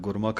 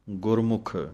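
First: The word lacks the short u vowel sound. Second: The word carries a short u vowel sound. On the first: The speaker calls it wrong. "ਗੁਰਮੁਖ ਨਹੀਂ ਕਹਿਣਾ" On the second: The speaker calls it right. "ਮੰਮੇ ਥੱਲੇ ਔਂਕੜ ਦਾ ਧਿਆਨ ਰੱਖ ਕੇ ਬੋਲਣਾ ਹੈ"

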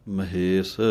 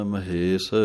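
Both takes have the same delivery.

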